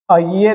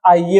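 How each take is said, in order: First: अइये begun with short "a"; short first vowel. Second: Said in the usual way. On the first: Shown as a demonstration. Teacher showing the wrong form, short "a" in अइये. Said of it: "नहीं होगा". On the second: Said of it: "होगा".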